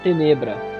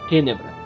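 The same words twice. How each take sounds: First: The name is said in a Brazilian way. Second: The name is said in a Latin-like way. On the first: "Se você quer uma pronúncia mais brasileira" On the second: "se uma pronúncia mais latina"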